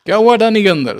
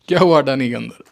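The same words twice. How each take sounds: First: Higher and louder, leaning on हुआ; louder taunt. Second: Said in the usual way. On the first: Acted. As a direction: push the taunt hard the second time. Repeats the question, pressing harder. (ऊँची, ज़ोरदार ताने भरी आवाज़)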